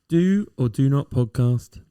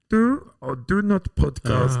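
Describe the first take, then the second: First: It is said in the speaker's own normal voice. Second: It is said in a put-on character voice.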